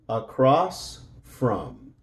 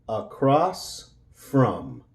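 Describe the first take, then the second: The two takes are said the same way.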